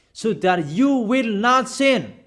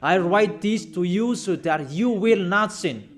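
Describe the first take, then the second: First: Slow and deliberate, each word weighted; preacher hammering the point; emphatic repeat. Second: Said in the usual way. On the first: Shown as a demonstration. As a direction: drive home "So that you will not sin" slowly, stressing "you". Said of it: "I emphasize that again and again". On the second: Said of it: "really emphasized the word".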